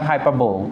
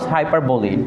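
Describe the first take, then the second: First: The word ends on the l consonant. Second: The word ends with a final ee vowel. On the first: The speaker calls it wrong. "Not হাইপারবোল" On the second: The speaker calls it right. "You have to pronounce হাইপারবোলি"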